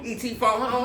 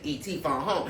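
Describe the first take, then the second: First: It is said excitedly. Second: It is said calmly.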